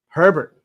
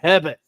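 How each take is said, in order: First: It is said in his usual, plain accent. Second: It is said in a Boston accent.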